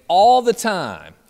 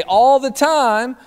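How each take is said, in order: First: Imitated loud, high group answer; campers' response. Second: Louder, higher, drawn-out call rising at the end; camp director's yell. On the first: Campers answering their camp director, loud drawn-out response. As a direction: stretch it out like kids shouting back. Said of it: "the campers would respond to Dave saying". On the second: Retold or imitated. Camp director calling back to the campers, high rising yell. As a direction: throw it back out to the room. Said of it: "And then Dave would say".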